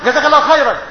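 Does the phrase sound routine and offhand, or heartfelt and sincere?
routine. It is said quickly and mechanically, without feeling. The thanks is an empty habit, not a real prayer. The speaker calls it wrong. "بطريقه الاخوه، ... ده كلمه روتين"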